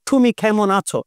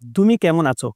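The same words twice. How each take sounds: First: The consonants are said with strong, forceful aspiration. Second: The consonants are said lightly, without strong aspiration. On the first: "উনি কিন্তু উচ্চারণ করছে ... এরকম বলে" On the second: "আমরা যখন আইপিএ দিয়ে লিখি"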